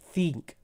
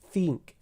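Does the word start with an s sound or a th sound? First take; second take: th; th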